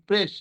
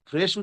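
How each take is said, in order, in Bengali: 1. শব্দটি p ধ্বনি দিয়ে শুরু হয়। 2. শব্দটি f ধ্বনি দিয়ে শুরু হয়। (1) "সে বলছে প্রেস" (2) "ফ্রেশ কে সে কিন্তু একবারের জন্য ফ্রেশ উচ্চারণ করতে পারছে না"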